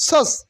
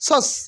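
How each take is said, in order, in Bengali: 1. r ধ্বনিটি নীরব থাকে। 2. r ধ্বনিটি নীরব থাকে।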